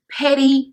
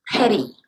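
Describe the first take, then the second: First: Said in the usual way. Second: Sighed petty. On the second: Retold or imitated. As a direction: let the word sink out on a disgusted sigh. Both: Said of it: "And everybody's like".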